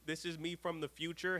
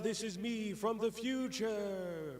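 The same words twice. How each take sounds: First: It is said in his natural voice. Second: It is said in a put-on voice.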